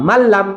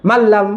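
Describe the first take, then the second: No difference in how they are said.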